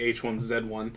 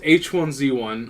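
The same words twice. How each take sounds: First: It is said in a Canadian accent. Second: It is said in a plain, non-Canadian accent.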